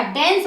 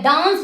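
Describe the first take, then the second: First: डांस said as "dense", with an "e" vowel; short "eh" sound in डांस; corrected front vowel. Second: डांस with a long open "aa"; wrong broad vowel. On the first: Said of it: "डांस होता है". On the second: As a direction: say डांस as "daans". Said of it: "डांस नहीं होता". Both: Shown as a demonstration.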